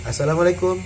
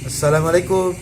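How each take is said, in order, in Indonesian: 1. Konsonan setelah vokal pertama itu tunggal. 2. Konsonan setelah vokal pertama itu tunggal.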